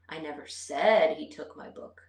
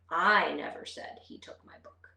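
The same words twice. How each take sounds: First: The stress is on the word said. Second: The stress is on the word I. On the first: I implied it without saying it aloud. "I might not have verbally said it" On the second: Someone else said it, not me. "let's put the emphasis on the first word"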